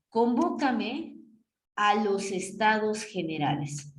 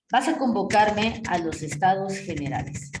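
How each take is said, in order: First: Slow, drawn-out command in an odd voice; slow demo. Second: Said in the usual way. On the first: Shown as a demonstration. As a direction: stretch each word as the king's order.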